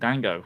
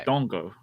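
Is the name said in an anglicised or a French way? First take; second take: anglicised; French. First: The name is said with an anglicised vowel. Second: The name is said with a French vowel. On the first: The speaker calls it wrong. "I've been saying his first name wrong" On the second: The speaker calls it right. "which is because it's French"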